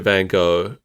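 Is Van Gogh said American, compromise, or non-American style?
American. It is said with an American pronunciation. "Americans always pronounce it"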